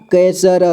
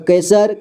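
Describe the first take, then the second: First: कैसर split as कै, स, र; syllable by syllable. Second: Said in the usual way. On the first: Shown as a demonstration. Teacher showing learners कैसर, sounded out in parts. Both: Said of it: "इसे पढ़ेंगे".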